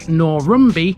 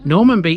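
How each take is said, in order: First: The middle syllable is said as 'rum'. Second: The middle syllable is said as 'man'. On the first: This is a local variation. "It even has variations" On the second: This follows the name's origin. "theoretically the correct way"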